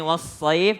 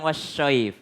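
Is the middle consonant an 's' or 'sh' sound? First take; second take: s; sh. First: The middle consonant is an 's' sound. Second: The middle consonant is an 'sh' sound. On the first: The speaker calls it right. "Pakai huruf sod" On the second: The speaker calls it wrong. "bukan wasyaif"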